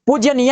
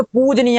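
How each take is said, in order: First: पूज्यनीय with a y after the j; mistaken extra y. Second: पूजनीय as pooj-neeya; corrected, no y. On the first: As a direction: say पूज्यनीय as pooj-ya-neeya. (पूज्यनीय, ज के बाद य) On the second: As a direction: say पूजनीय with plain j before n. (पूजनीय, ज के बाद सीधे न) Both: Shown as a demonstration. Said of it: "तो पूजनीय होता है".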